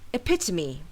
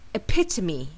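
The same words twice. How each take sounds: First: The stress is on the second syllable. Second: The stress is on the second syllable.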